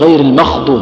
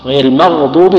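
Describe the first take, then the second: First: The consonant is a voiceless throaty kh sound. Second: The consonant is a voiced throaty gh sound. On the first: The speaker calls it wrong. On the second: The speaker calls it right.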